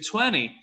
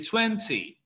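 First: It is said in an American English accent. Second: It is said in a British English accent. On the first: "American English, they would say 20" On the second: "British English, they would say 20"

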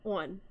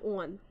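No difference in how they are said.

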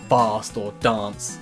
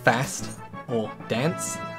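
First: It is said in a British accent. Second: It is said in an American accent. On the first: "usually it'll be British people saying" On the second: "in the US they say"

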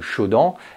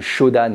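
First: The word is said with French sounds. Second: The word is said with Japanese sounds. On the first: The speaker calls it wrong. "et pas de" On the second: The speaker calls it right. "on parle de shodan"

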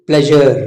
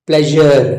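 The two takes are said the same way.

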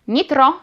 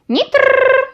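First: The name is said normally with a plain R. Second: The R is stressed and drawn out, rolled. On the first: It is just the dog's name. "wypowiedzianych normalnie" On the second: It is a command to come back immediately. "z zaakcentowaną literą R"

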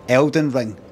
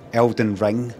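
First: The stress falls on the word Elden. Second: The stress falls on the word Ring. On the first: "This ring, that ring, Elden Ring" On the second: "I don't say Elden Ring"

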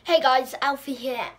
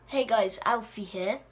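First: The voice sounds high and squeaky. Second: The voice sounds normal, not squeaky.

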